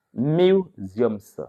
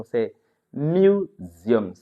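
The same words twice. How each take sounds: First: Said in the usual way. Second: Slow, careful "museums", every sound spelled out; slow model of "museums" for learners to copy; teacher sounding out "museums" slowly; careful pronunciation. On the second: Shown as a demonstration. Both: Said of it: "faites beaucoup attention à la prononciation".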